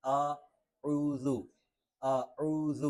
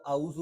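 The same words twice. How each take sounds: First: "اعوذ" drawn out slowly with ain from the throat; correct pronunciation. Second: Quick "اعوذ" with a plain vowel, no ain; wrong pronunciation. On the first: Teacher models the correction, slow "اعوذ" with throaty ain. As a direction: stretch "اعوذ" with a clear Arabic ain. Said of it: "یہ درست نہیں ہے". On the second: Teacher shows learners the mistake, "اعوذ" without the throat sound. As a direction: say "اعوذ" Urdu-style as a-uzu, hurried. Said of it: "اس کو اعوذ پڑھنا یہ درست نہیں ہے". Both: Shown as a demonstration.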